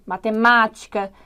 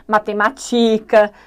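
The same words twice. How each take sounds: First: "matemática" stressed on MÁ, third from last; slow "matemática", leaning on MÁ; correct stress. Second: "matemática" stressed on TI, next to last; slow, wrong "matemática" as ma-te-ma-TÍ-ca; misplaced stress. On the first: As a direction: model "matemática" with a strong MÁ. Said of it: "é fundamental que esses acentos apareçam". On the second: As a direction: shift the punch in "matemática" onto TI. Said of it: "não vai dar certo". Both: Shown as a demonstration.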